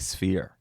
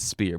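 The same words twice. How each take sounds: First: The word is pronounced in the usual way. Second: The word is pronounced in his own unusual way. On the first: The speaker calls it right. "for the piece of this podcast today, I will say sphere" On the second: The speaker calls it wrong. "I will be the one person on earth that says sphere"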